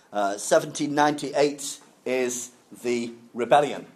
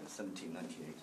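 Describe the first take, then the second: First: Seventeen ninety-eight spelled out carefully for learners; stressing the date. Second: Soft, much quieter Seventeen ninety-eight; quiet repeat. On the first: Teacher repeating the year for the class, deliberate emphasis. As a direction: lean on ninety-eight so students catch the year. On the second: Teacher softly repeating the year for students. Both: Shown as a demonstration. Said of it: "I know that numbers are sometimes difficult".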